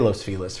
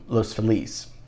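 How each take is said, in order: First: It is pronounced the way locals say it. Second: It is pronounced the way newcomers say it. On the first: The speaker is a local. "We say Los Feliz for some reason" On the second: The speaker is not from the area. "People say that, but locals and Angelinos don't say that"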